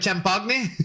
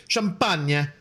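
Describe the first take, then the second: First: Champagne said as cham-POG-nee, with a laugh; mock mispronunciation. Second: Champagne said as sham-PAHN-yuh; corrected pronunciation. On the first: Joking that Aristotle sounds like this, champagne mispronounced as cham-pog-nee. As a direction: say champagne with a hard g and final nee. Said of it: "Aristotle sounds like a". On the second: Offering a more appropriate pronunciation, champagne as sham-pahn-yuh. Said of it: "actually more appropriate, uh, pronounce". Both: Shown as a demonstration.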